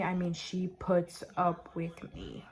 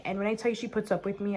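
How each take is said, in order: First: "puts up" said slowly, each word leaned on; slow, weighty insistence; slow emphatic repeat. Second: Said in the usual way. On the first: Shown as a demonstration. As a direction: drag it out to make the point.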